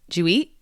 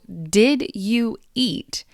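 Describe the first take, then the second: First: D and Y merge into J; T is glottal. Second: Each word is said separately and fully.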